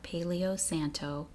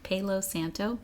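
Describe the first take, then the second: First: The first word is said like paleo, three syllables. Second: The first word is said as palo, two syllables. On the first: The speaker calls it wrong. "did I say that right, wrong?" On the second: The speaker calls it right. "Not paleo"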